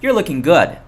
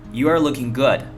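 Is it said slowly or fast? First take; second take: fast; slowly. First: It is said fast, words run together. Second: It is said slowly, word by word.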